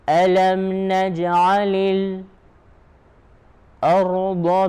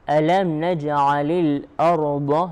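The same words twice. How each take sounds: First: A brief pause comes just before 'ard'. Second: Al-ard is joined normally without a pause. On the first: This is the reading of another particular reciter. "he will have a pause called sekt" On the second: This is the reading of most reciters. "all the Qurra recites this way except Warsh and Hamza"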